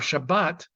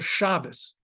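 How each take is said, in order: First: The word ends with a t sound. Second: The word ends with an s sound. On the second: This is the pronunciation heard in Orthodox synagogues. "especially a lot of Orthodox synagogues, you'll say, you hear Shabbos"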